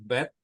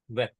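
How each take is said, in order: First: It begins with a b sound. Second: It begins with a v sound. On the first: The letter has a dot in it. "If there is one dot in depth, hmm, so this depth is called depth" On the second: The letter has no dot in it. "But if there is no dot, then it is called weth"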